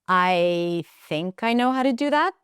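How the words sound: The pitch rises at the end. The speaker is unsure of themselves. "that rising, rising intonation means that I'm kind of doubting myself"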